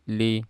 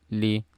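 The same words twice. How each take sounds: The two takes are said the same way.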